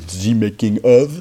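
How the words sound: It is said with a French accent.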